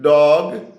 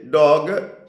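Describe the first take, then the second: First: The word is said with its normal sounds. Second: The word is said with an extra sound inserted. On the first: "instead of saying dog" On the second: "adding speech sounds"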